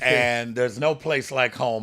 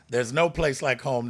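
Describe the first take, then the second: First: It is said in his normal voice. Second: It is said imitating Dorothy's voice.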